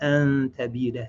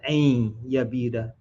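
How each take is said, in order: First: The second word begins with a T sound. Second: The second word begins with a Y sound. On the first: The speaker calls it right. "The second time correct" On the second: The speaker calls it wrong. "I mispronounced that the first time. Said ain yabida"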